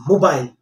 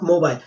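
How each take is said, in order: First: "mobile" said carefully the corrected way; corrected pronunciation. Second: "mobile" said the common mistaken Indian way; mispronunciation. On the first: Teacher correcting learners after the error, properly said "mobile". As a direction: model "mobile" with a full, careful second syllable. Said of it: "it's mobile". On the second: Teacher telling learners what to avoid, mispronounced "mobile". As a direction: show the faulty "mobile" to be corrected. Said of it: "It's not mobile". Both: Shown as a demonstration.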